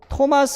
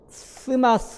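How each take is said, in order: First: The name begins with a plain t sound. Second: The name begins with a th sound. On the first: The speaker calls it right. "토마스 할 때" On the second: The speaker calls it wrong. "이렇게 안 하죠"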